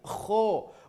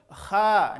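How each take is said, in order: First: The vowel is a thick, rounded o sound. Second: The vowel is a thin, open a sound. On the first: The speaker calls it right. "tapi kho. Bunyi vokal huruf tebal adalah huruf O" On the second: The speaker calls it wrong. "Kha, enggak"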